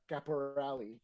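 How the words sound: The name is said with English pronunciation. "They pronounce the E for whatever reason"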